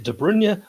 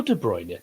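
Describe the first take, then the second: First: De Bruyne as duh BRUN-yuh; first pronunciation option. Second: De Bruyne as duh BROYN-yuh; second pronunciation option. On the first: Pundit polls the viewers, De Bruyne as duh BRUN-yuh. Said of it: "Put in the comments". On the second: Pundit polls the viewers, De Bruyne as duh BROYN-yuh. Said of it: "is it De Bruyne or". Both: Shown as a demonstration.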